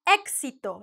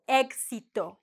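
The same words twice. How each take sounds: First: The x sounds like a crisp 'ks'. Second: The x sounds like a soft 'gs'. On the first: This is the careful standard pronunciation. The speaker calls it right. "the proper sound is éxito, like the K plus the S" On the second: This is how it comes out in fast casual speech. The speaker calls it wrong. "You're going to sound maybe like gus, like éxito, like egg"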